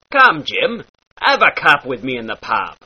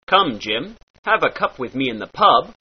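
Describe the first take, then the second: First: "cup" and "pub" with a short ah vowel; pirate ah. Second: Said in the usual way. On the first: Shown as a demonstration. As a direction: open the u of "pub" into ah. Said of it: "short ah sound". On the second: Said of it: "turns into".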